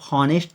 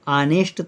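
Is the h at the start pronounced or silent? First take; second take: pronounced; silent. First: The word starts with an h sound. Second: The word starts with a vowel sound. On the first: The speaker calls it wrong. "इसको आप हॉनेस्ट तो पढ़ते नहीं है" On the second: The speaker calls it right. "एच इसमें silent letter है"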